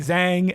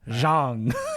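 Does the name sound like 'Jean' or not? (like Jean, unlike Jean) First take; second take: unlike Jean; like Jean. First: The name does not sound like 'Jean'. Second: The name sounds like 'Jean'. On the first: The speaker calls it wrong. "I look at it and I want to say Zhang, and I know that's not what it is" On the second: The speaker calls it right. "I got to think like Jean"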